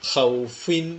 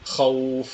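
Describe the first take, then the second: First: The word ends with a short vowel and n. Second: The word ends on a bare f sound. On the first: The reading continues without a stop. "ഖൗഫിൻ എന്നാണ് വരുന്നതിൽ" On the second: The reader stops on this word. "സുക്കൂന് നൽകി വഖഫ് ചെയ്യുകയാണെങ്കിൽ അൽ ഖൗഫ് എന്നായിട്ട് മാറി"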